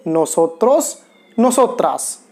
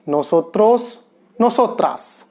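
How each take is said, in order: First: A second clear take of नोसोत्रोस, नोसोत्रास; model pronunciation. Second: नोसोत्रोस and नोसोत्रास said as nosotros, nosotras with a rolled r; model pronunciation. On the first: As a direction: repeat नोसोत्रोस, नोसोत्रास as nosotros, nosotras for learners. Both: Shown as a demonstration. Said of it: "कैसे pronounce करेंगे?".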